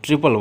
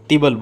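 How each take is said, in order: First: It begins with a 'tr' cluster. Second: It begins with a plain 't' sound. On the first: The speaker calls it right. "जबकि ट्रिपल word होता है" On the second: The speaker calls it wrong. "कई बार इसको लोग तिबल बोलते हैं"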